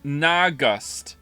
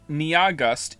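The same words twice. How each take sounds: First: "Nagust" as NAH-gust, two syllables; Y sound dropped. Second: "Niagust" as nee-YAH-gust, slowly; Y sound kept. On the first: Streamer trying chat's version, "Nagust" as nah-gust. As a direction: say "Nagust" with a plain nah start. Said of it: "You want me to say". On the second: Streamer checking with chat, "Niagust" with nee-yah. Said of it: "not say Niagust". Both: Shown as a demonstration.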